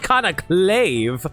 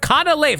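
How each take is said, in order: First: The name has a k sound before 'lave'. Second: The name has no k sound before 'lave'. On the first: The speaker calls it wrong. "not Canaclave" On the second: The speaker calls it right. "Canalave, not Canaclave"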